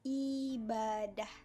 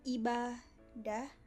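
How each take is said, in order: First: The word is said smoothly as one unit. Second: The word is broken into separate syllables. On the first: "kalau dilafalkan itu" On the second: "Sedangkan pemenggalan yaitu"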